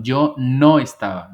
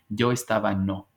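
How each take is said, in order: First: NO stretched out and loud; slow, punched "no" before "estaba"; stress on NO. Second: Said in the usual way. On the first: Shown as a demonstration. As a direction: hit "no" hard, then let "estaba" fall. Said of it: "Nosotros lo decimos así". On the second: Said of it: "Ellos dicen".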